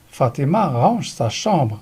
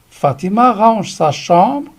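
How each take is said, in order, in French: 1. La voix descend à la fin. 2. La voix monte à la fin. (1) "Regardez la différence" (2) "caractérisée par une intonation montante à l'oral"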